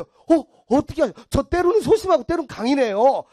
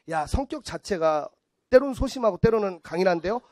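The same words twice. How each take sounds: First: High, loud mock amazement; gullible excitement. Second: Mock palm reader. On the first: Gullible woman agreeing with palm reader, high excited gushing. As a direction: gush as if totally convinced. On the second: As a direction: ponder it lightly like a palm reader. Acting palm reader's vague reading.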